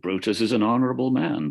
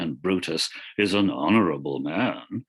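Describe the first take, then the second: First: It is said plainly, without irony. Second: It is said with heavy, mocking irony.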